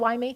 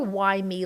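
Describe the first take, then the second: First: It is asked in a matter-of-fact, curious tone. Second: It is asked in a self-pitying, angry tone.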